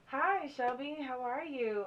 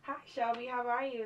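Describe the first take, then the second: First: It is said more slowly. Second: It is said fast.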